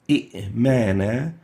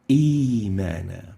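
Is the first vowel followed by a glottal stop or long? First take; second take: glottal stop; long. First: A short vowel is followed by a glottal stop. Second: The first vowel is stretched into a long 'ii'. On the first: The speaker calls it wrong. "I converted into E" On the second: The speaker calls it right. "the second hamza is changed into a mad ya"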